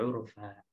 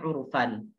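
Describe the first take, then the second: First: The word ends with an open vowel. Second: The word ends with an n sound. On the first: The reciter stops at this word. "Karena dia waqaf maka menjadi urfa" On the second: The recitation continues past this word. "Harusnya kan urfan"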